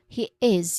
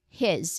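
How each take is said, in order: First: Two separate words with a clear h sound. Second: One merged word with the h sound dropped. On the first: "if you say these two words very clearly and separately" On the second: "in natural connected speech ... It becomes his"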